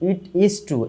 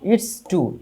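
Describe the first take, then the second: First: It and is are said as separate words. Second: It and is are merged into one syllable. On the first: "এটা হবে ইট ইজ" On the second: "shortcut উচ্চারণ হচ্ছে ইটস true"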